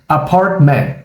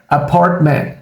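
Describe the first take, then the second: No difference in how they are said.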